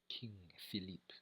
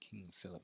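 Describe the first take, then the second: First: The name is said with a French pronunciation. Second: The name is said with an English pronunciation. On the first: The speaker calls it right. "It's French" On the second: The speaker calls it wrong. "that's the British pronunciation"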